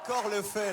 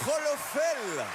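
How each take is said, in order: First: The name begins with a K sound. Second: The name begins with an R sound. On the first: The speaker calls it right. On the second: The speaker calls it wrong. "avec mon Rolofel, j'étais pas du tout là en fait"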